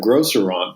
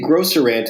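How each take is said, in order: First: The ending sounds like the end of 'restaurant'. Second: The ending sounds like the word 'ant'. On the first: "instead of grocerant, but it's a portmanteau of grocery and restaurant" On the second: "now you say grocerant"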